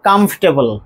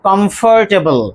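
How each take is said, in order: First: The middle 'or' syllable is dropped. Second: The middle 'or' syllable is fully pronounced. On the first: The speaker calls it right. "মাঝখানে যে অর, এই দুটো লেটারই আমরা বাদ দিয়ে দেবো" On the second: The speaker calls it wrong. "আমরা প্রায় বলি বা আমরা বলে থাকি"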